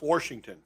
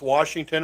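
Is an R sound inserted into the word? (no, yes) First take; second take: yes; no. First: An R sound is added inside the word. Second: The word is said without any added R sound.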